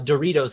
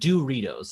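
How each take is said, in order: First: The word is said with ordinary emphasis. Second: The word is said with the mom's weird emphasis.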